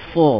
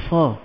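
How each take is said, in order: First: "Sa" with raised tongue, rounded toward "so"; emphatic Arabic sad in "Sa"; high, heavy SA. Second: Light, flattened "sa" with an open a; unraised everyday "sa"; wrong plain SA. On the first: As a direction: thicken "Sa" to a full, dark "so". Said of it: "dia tinggi? Sebab sifat isti'la". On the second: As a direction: say "sa" thin, without raising the tongue. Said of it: "Kita tak sebut". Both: Shown as a demonstration.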